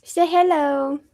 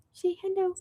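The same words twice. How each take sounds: First: Said in the usual way. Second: Higher, softer coaxing voice; pet talk. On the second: Real, not acted. Coaxing her cat to greet viewers, high and soft. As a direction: sweetly coax the cat.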